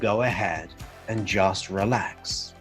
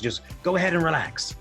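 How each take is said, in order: First: It is said slowly in a calm, relaxed voice. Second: It is said very fast and loudly, almost shouted. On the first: The words match the feeling they describe. The speaker calls it right. "saying certain words with a sense of relaxation" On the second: The delivery is out of sync with the words. The speaker calls it wrong. "if I shouted that, if I was going it very, very fast"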